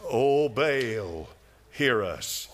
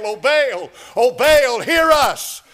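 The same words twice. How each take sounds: First: Lower, lighter mock plea; a hint of a mocking plea; mock pleading. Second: High, loud pleading wail; crying out to Baal. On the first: Preacher mimics Baal's prophets again, light mocking plea. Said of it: "Can you hear him?". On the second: Retold or imitated. Preacher mimics Baal's prophets, loud pleading wail. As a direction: wail it up to an idol that won't answer. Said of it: "the prophets of Baal cried out to Baal".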